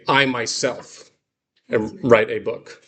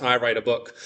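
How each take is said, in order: First: I myself said slowly, leaning on myself; emphatic I myself. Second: Said in the usual way. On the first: Shown as a demonstration. Teacher stressing I myself for emphasis. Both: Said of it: "more than just".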